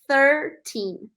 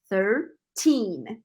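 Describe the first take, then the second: First: The stress is on the first syllable. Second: The stress is on the last syllable. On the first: The speaker calls it wrong. "a gente não pronuncia thirteen" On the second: The speaker calls it right. "A sílaba tônica é a última, então é thirteen"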